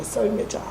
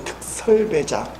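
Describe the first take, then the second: First: 썰 매장 whispered, 특 dropped so it sounds like a sledding rink; child's mishearing. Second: 특설 매장 with a clear 특 at the start, said slowly; special sale floor said right. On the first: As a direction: say 썰 매장 softly, as a child hears it. (썰 매장을 아이처럼 작게 속삭이듯) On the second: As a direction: pronounce 특설 매장 carefully, with a crisp 특. (특설 매장을 또박또박 정확하게) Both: Shown as a demonstration. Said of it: "우리는 특설 매장으로 있는데 얘는 특설 매장".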